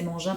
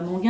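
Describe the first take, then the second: First: The g is soft, like a zh sound. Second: The g is hard, like in go. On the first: The speaker calls it right. "c'est Mangin" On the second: The speaker calls it wrong. "pas Manguin"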